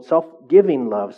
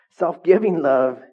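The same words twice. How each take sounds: First: SELF-GIVING said slowly and firmly; stressed correction. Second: "Self-giving" slow, louder, higher; stressed correction. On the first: Correcting himself before the church, stressing self-giving. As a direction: lean on "Self-giving" as the fix. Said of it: "sorry. Not self-love". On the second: Restating the goal to the church, stressing self-giving. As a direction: hammer "Self-giving love" home. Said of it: "Not self-love". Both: Shown as a demonstration.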